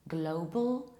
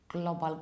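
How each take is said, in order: First: The first vowel is said with rounded lips. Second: The first vowel is unrounded, foreign-sounding. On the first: The speaker calls it right. "The correct one is global and globally. You round it" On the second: The speaker calls it wrong. "this is how you would probably pronounce it in your mother tongue"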